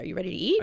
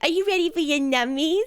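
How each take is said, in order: First: It is said in a plain, normal adult voice. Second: It is said in a cooing baby-talk voice.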